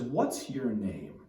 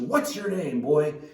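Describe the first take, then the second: First: It sounds firm and insistent. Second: It sounds angry and confrontational.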